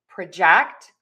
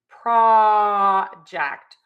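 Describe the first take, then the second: First: The stress is on the second syllable. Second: The stress is on the first syllable. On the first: It is used as a verb. "we are going to shift the stress to the second syllable" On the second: It is used as a noun. "we are going to stress that syllable"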